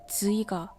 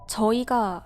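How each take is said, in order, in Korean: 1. 첫 자음은 영어의 'z' 소리와 비슷해요. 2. 첫 자음은 표준 한국어의 'j' 소리예요.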